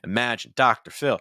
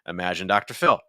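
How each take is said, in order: First: Every word is stressed on a high pitch. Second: Fewer words are stressed; the pitch drops lower. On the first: "you're giving me every word is stress" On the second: "I'm able to drag things down lower because I'm not having as many stress words"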